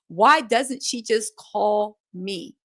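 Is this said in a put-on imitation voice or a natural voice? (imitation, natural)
natural. It is read in a natural voice.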